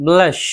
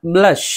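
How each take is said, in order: Both takes have the same delivery.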